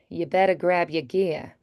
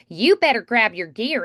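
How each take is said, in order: First: It is said in a plain, neutral accent. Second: It is said in a bright, nasal Southern drawl. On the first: "instead of like" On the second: "faster talking, twangy kind of sound"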